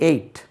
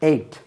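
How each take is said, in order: Both takes have the same delivery.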